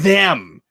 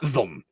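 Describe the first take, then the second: First: The word is overpronounced and drawn out long. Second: The word is said short and reduced. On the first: "It's always them. Like just a really long them" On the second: "he never says like got them"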